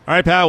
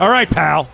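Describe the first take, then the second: First: It is said in a warm, friendly tone. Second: It is said in a cold, hostile tone. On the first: The address is meant kindly. "That was a good pal, not a bad pal" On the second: The address is meant as a put-down. "Like that. That's not a good one"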